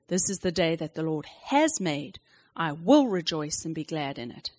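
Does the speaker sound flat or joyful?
joyful. It is said more joyfully and brightly.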